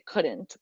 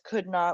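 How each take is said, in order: First: It is said as one contracted word. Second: It is said as two full words. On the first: The speaker calls it right. "We just say" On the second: The speaker calls it wrong. "We never say would not"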